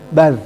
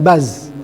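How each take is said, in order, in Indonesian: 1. Konsonan ini dibuat dengan lidah di antara gigi. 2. Konsonan ini adalah bunyi z yang biasa, berdengung. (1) "lidah keluar aja, gigit aja lidah"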